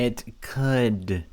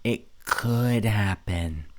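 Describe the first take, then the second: First: "could" drawn out and falling; stress on could. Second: "could" slow and heavy in "It could happen"; stress on could. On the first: Host echoing her, stressing "could". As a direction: lean on "could", slow fall. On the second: Host slowly stressing "could" in "It could happen". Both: Shown as a demonstration. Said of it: "Main word, could".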